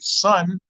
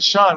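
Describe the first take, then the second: First: The word begins with a plain s sound. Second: The word begins with an sh sound. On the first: The usual way of saying the word. "instead of saying son" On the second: The way people said it in the speaker's neighborhood. "That's how we said it around my way"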